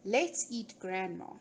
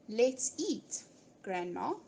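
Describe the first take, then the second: First: It runs straight on with no pause before grandma. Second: There is a short pause before grandma. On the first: Grandma is the thing being eaten. "implying that we're going to eat grandma" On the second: Grandma is being called to come and eat. "Come grandma, we're going to eat"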